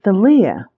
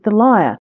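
First: The word has an Irish regional pronunciation. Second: The word has the standard English pronunciation. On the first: "she pronounced it the lyre" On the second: "in English, of course, we pronounce it the lyre"

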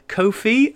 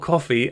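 First: The first vowel is long and the second ends in 'ee'. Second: The first vowel is short, like 'coffee'. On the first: "as in Anan is the one that baffles me" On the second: "as in the drink"

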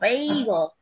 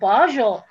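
First: The middle consonant is a hard g sound. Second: The middle consonant is a soft j sound. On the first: This is the usual way to say the word. The speaker calls it right. "it's pronounced bagel" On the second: Someone unfamiliar with the word says it this way. The speaker calls it wrong. "Would you spell that for me?"

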